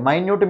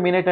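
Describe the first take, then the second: First: Minute said "my-nyoot". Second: Minute said "min-it". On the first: Teacher showing differing pronunciation, minute said "my-nyoot". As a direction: pronounce minute as my-NYOOT, meaning tiny. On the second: Teacher showing differing pronunciation, minute said "min-it". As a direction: pronounce minute as MIN-it, the time word. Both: Shown as a demonstration. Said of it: "pronunciation different".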